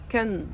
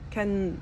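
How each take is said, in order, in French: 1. Le T du milieu est omis. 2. Le T du milieu est omis.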